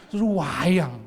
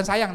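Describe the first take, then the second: First: "wayang" hugely drawn out and loud; intensified "sayang". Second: Said in the usual way. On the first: Shown as a demonstration. Preacher shows how deeply God loves, "wayang" stretched out long. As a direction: stretch the first vowel of "wayang" to gush affection. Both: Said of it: "bukan sayang nih bahasanya".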